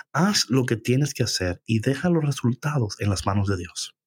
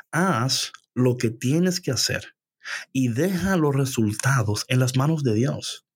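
First: Said in the usual way. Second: Slow, weighty pauses after "Haz" and "hacer"; slow emphatic repeat. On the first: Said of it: "ahora te voy a decir una cosa". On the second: Shown as a demonstration. Preacher repeats her key advice to the congregation, slow and emphatic on "deja los resultados". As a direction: spell out "Haz lo que tienes que hacer" slowly, phrase by phrase.

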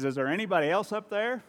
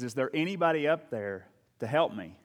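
First: High-pitched hopeful call; mock plea climbing high for the punchline; comic plea upward. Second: Mock call for help, only slightly raised; half-hearted yell up the cliff; retold desperate yell. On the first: Hanging man seeks another rescuer, high comic call. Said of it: "looks back up and says". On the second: Man hanging from a branch calls up, mild desperate yell. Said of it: "in desperation, he yells up".

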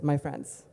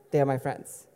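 First: Said in the usual way. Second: "They are my friends" said pointedly; underlined correction. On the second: Real, not acted. Telling the audience they really are friends, "They are my friends" underlined. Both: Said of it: "just underlining".

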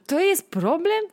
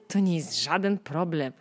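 First: Higher, louder scoffing question; scoffing disbelief. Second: Said in the usual way. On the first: Acted. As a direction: laugh off the problem. Dismissing yesterday's problems.

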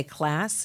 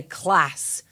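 First: "class" with a flat American a. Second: "class" with a short flat a and a dark back-of-throat L, Northern English. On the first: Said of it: "we would say class". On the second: Coach showing the Northern English "class". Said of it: "the Northerner would say class". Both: Shown as a demonstration.

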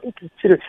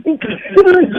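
First: Low, hushed imitation of a put-down; "inconsiderate" dropped low and soft, as a retold insult; the hurtful way. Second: "inconsiderate" lighter and higher in pitch; higher-pitched demo of "inconsiderate"; the alternative way. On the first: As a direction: quote "inconsiderate" low and under the voice. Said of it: "the way he said it". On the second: Shown as a demonstration. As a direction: say "inconsiderate" higher, at an ordinary volume. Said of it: "You could say inconsiderate".

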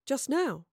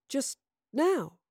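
First: Higher, puzzled echo. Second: Halting, higher questioning echo; struggling to remember. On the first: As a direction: echo it in bafflement. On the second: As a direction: repeat it while searching memory. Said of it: "struggling to remember". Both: A narrator's reading.

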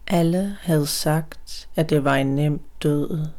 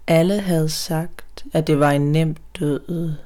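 The two takes are said the same way.

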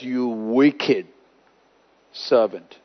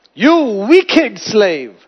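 First: Low, soft, grave rebuke; stern rebuke. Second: "wicked" dragged out slow and firm; slow emphatic rebuke. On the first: God condemns the ungrateful servant, low and grave. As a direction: drop the voice to condemn. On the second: God rebukes the slave, slow and emphatic. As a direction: lean hard on "wicked", slowly. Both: Retold or imitated. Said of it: "and he says".

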